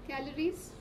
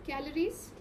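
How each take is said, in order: Both takes have the same delivery.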